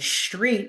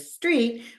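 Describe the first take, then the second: First: The word is pronounced with a distorted sound. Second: The word is pronounced with clear standard sounds. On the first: The speaker calls it wrong. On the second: The speaker calls it right.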